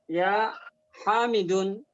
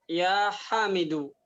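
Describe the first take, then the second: First: The name ends in u followed by n. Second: The name ends in a plain u vowel. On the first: The speaker calls it wrong. "Enggak ya Hamidun, bukan begitu" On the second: The speaker calls it right. "Contohnya ya Hamidu"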